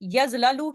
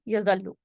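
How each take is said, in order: First: The two l sounds are separated by a vowel. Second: The two l sounds merge into one doubled l. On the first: This is the underlying form before assimilation. The speaker calls it wrong. "की जगह" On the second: This is the actual form after assimilation. The speaker calls it right. "यजललू की जगह यजल्लू"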